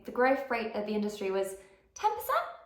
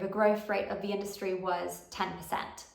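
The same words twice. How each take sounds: First: The pitch rises at the end of the sentence. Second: The pitch falls at the end of the sentence. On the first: The speaker sounds unsure, like asking a question. The speaker calls it wrong. "it sounds like a question" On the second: The speaker is confident and sure. The speaker calls it right. "when I go kind of down at the end of my sentence"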